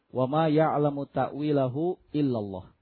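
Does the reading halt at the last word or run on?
halts. The reading comes to a full stop on Allah. Only God knows its interpretation. "membaca waqaf pada kata Allah"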